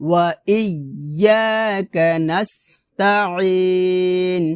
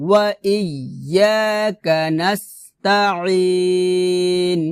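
No difference in how they are said.

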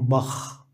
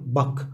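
First: The final sound is a raspy kh sound. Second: The final k sound is soft and light. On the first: This is how it is said in some regions. "في بعض المناطق يقولون بخ بالخاء" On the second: This is how it is said in Istanbul. "يعني في إسطنبول قاف مخففة"

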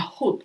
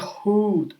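First: The u vowel is short. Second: The u vowel is long. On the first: The speaker calls it right. "коротка у" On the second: The speaker calls it wrong. "Не худ"

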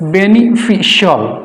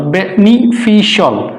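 No difference in how they are said.

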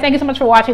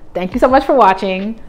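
First: The sentence is said at a fast pace. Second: The sentence is said at a slower pace. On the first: The speaker calls it wrong. "people be telling me I need to slow down" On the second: The speaker calls it right. "I'm gonna try to say that slower"

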